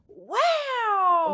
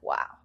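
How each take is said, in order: First: The word is said in a full voice. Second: The word is said in a whisper. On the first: The groom feels he must say something on camera. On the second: The groom reacts quietly and privately.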